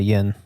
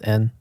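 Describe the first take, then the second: First: The word begins with a y sound. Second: The word begins directly with a vowel. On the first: The speaker calls it wrong. "you don't say yin" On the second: The speaker calls it right. "when you actually pronounce it, it's N"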